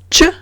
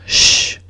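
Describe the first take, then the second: First: A hard 'ch' sound, as in 'church'. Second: A soft 'sh' sound, as in 'shoe'. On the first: The speaker calls it wrong. "no es un sonido fuerte, no es ch" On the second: The speaker calls it right. "sino sh"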